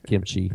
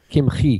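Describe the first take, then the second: First: The middle sound is like 'ch' in chair. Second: The middle sound is a throaty, rasping h. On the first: It names the Korean food. The speaker calls it wrong. "My wife likes to eat kimchi" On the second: It names the medieval rabbi. The speaker calls it right. "It's got a chet in there"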